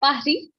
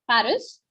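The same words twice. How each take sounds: First: "Paris" the French way, silent final s; French pronunciation. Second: "Paris" the English way, final s sounded; English pronunciation. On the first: Teacher showing learners the French word, "Paris" with a silent s. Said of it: "in French, it's Paris". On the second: Teacher giving learners the English word, "Paris" with a sounded s. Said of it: "the word Paris, in French, it's Paris". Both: Shown as a demonstration.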